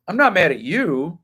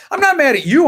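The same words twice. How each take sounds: First: Said in the usual way. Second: "not" lifted high, rising pitch; reassuring emphasis. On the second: Real, not acted.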